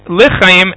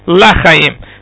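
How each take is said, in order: First: The first syllable has a short, reduced 'e' vowel. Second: The first syllable has an open 'a' vowel. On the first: It means for life. The speaker calls it right. "one should be careful to say zachinu lechayim" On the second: It might be heard as not for life. The speaker calls it wrong. "and not lachayim"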